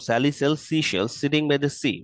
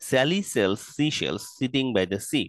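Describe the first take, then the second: First: The sentence is said faster. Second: The sentence is said slowly. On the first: "আরেকটু দ্রুত" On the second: "প্রথমবার slowly"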